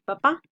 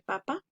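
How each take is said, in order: First: Papá stressed on the final syllable, pa-PÁ; stress on last syllable. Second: Papa stressed on the first syllable, PA-pa. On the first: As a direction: punch the second syllable of papá. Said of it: "que decir papá". (papá con acento en la última sílaba, pa-PÁ) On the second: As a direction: hit the first PA of papa, let the second fall. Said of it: "No es lo mismo decir". (papa con acento en la primera sílaba, PA-pa) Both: Shown as a demonstration.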